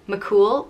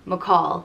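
First: The name ends with a long 'oo' vowel. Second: The name ends with an 'aw' vowel. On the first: "it can be pronounced either McCool" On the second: "or McCall"

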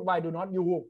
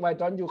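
First: The words are said separately and fully. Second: The words are run together quickly. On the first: The speaker calls it wrong. "เขาจะไม่พูด" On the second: The speaker calls it right. "เพราะฝรั่งเขาพูดแบบนี้"

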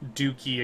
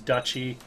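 First: The middle consonant is a hard k sound. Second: The middle consonant is a ch sound. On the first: The speaker calls it wrong. "That's how I pronounced it for years" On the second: The speaker calls it right. "until someone told me it was duchy"

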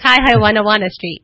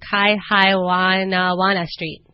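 First: The street name is said quickly and smoothly. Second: The street name is said slowly and carefully.

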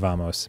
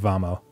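First: The word ends with an audible S sound. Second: The word ends without any S sound. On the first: "I don't know if you pronounce the S in vamos" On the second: "Might just be vamo"

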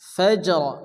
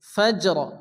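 Both takes have the same delivery.

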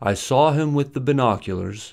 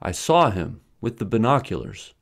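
First: There is no pause after 'him'. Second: There is a pause after 'him'. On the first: He has the binoculars. "Without a pause, with the binoculars modifies him" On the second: I have the binoculars. "but with a pause, it modifies saw"

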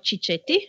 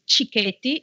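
First: The middle consonant is a soft ch sound. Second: The middle consonant is a hard k sound. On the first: The speaker calls it wrong. "it's not Cicchetti" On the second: The speaker calls it right. "CH in Italian is K, so it's Cicchetti"

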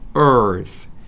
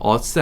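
First: The word ends with a th sound. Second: The word ends with a plain s sound. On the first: The speaker calls it right. "아니고 earth" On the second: The speaker calls it wrong. "us 아니고"

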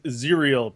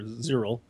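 First: The name rhymes with the word cereal. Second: The name does not rhyme with cereal. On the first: The speaker calls it right. "pronounced like cereal" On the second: The speaker calls it wrong. "or Zyril"

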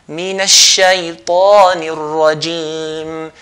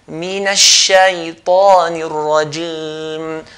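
No difference in how they are said.

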